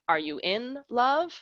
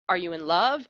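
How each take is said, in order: First: There is a break between 'in' and 'love'. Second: The phrase runs on with no break after 'in'. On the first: It asks whether you are at home. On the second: It asks whether you are in love.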